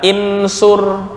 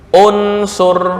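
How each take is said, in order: First: The word begins with an i vowel. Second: The word begins with a u vowel. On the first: The speaker calls it wrong. "nggak boleh dibaca insur" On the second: The speaker calls it right. "hamzah wasal dibaca dhammah u"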